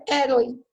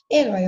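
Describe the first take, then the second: First: "herói" stressed on the first syllable, É-roi; misplaced stress. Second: "Herói" stressed on the final open -ói; stress on last syllable. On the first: Teacher showing the reading without accent, first-syllable stress on "herói". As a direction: hit the start of "herói", weak ending. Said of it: "Senão eu vou ler". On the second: Teacher reading the accented word, final stress on "Herói". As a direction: land on the end of "Herói". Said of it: "na oxítona o acento continua". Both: Shown as a demonstration.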